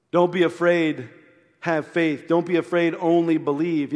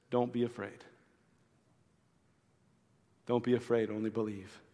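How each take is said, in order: First: Louder, ringing proclamation of "Don't be afraid, only believe"; emphatic preaching. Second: Soft, much quieter comfort to a grieving father; gentle reassurance. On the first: Shown as a demonstration. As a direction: preach it out with conviction. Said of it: "You know what that means?". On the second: Acted. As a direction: say it tenderly, almost under your breath.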